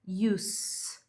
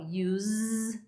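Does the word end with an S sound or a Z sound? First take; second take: S sound; Z sound. First: The word ends with a hissing S sound. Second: The word ends with a buzzing Z sound. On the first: "com som de S no final" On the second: "com esse sonzinho de Z no final"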